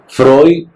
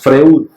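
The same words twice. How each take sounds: First: The name is pronounced with Spanish sounds. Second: The name is pronounced with German sounds. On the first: "lo decimos así en español" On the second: "no decimos Freud"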